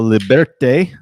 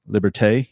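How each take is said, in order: First: It is said with Spanish-sounding vowels. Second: It is said with French-sounding vowels. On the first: The speaker calls it wrong. "I don't think that's how you say it. That's more Spanish" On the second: The speaker calls it right. "sounds more"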